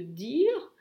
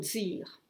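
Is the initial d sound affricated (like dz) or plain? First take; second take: plain; affricated. First: The word starts with a plain d sound. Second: The word starts with an affricated dz sound. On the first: "au lieu de dire" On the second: "le D et le T vont devenir des Z et des Ts"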